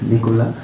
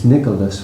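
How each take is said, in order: First: The name ends without an S sound. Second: The name ends with an S sound. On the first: "they don't pronounce the S" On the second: "It's Nicholas really"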